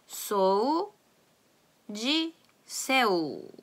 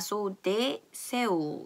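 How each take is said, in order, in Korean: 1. 'de'는 j 소리로 시작합니다. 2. 'de'는 d 소리로 시작합니다. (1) "브라질에서는 디이가 붙었을 때 지, 지로 발음이 된다는 것" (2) "포르투갈에서는 아마 sou de seu 이렇게 하겠지만"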